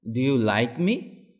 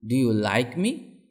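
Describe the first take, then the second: No difference in how they are said.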